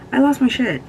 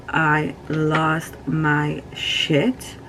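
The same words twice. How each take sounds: First: I lost my shit said louder and higher. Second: Each word stretched slowly; slow and drawn out. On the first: Grieving vlogger loudly insisting she fell apart. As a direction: punch it out with emphasis. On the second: Grieving vlogger slowly recalling losing her cat. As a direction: linger on every word of I lost my shit. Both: Real, not acted. Grief over cat, repeated.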